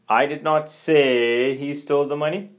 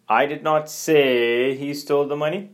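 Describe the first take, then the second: First: The stress falls on the word "say". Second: The stress falls on the word "say".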